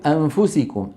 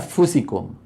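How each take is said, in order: First: The n stays faintly nasal before the f. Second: The n vanishes into a doubled f sound. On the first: The speaker calls it right. "لكنهم قالوا أنفسكم" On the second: The speaker calls it wrong. "لو قالوا أفسكم شو كان هذا اسمه؟ إدغام"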